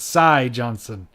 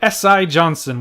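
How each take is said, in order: First: The first name is said as one word. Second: The first name is said as two letters. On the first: The speaker calls it right. "when it's Cy Johnson" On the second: The speaker calls it wrong. "we'll leave it at S I Johnson"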